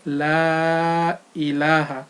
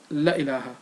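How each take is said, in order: First: It is slow, with the long vowel said clearly. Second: It is rushed, with the long vowel cut short. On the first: The speaker calls it right. "recited clearly and slowly as La ilaha" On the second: The speaker calls it wrong. "and not La ilaha"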